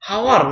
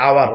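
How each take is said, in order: First: The word begins with an h sound. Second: The word begins with a vowel sound. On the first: The speaker calls it wrong. "এটা কি হাওয়ার নাকি আওয়ার" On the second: The speaker calls it right. "এটার উচ্চারণ হবে আওয়ার"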